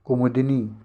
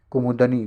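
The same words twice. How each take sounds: First: कुमुदिनी with an i after d; teacher modelling the di in कुमुदिनी; correct pronunciation. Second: कुमुदनी with an a before the final nee; teacher showing faulty ku-mu-da-nee for कुमुदनी; wrong pronunciation. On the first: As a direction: say कुमुदिनी as ku-mu-di-nee. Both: Shown as a demonstration. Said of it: "कुमुदनी नहीं".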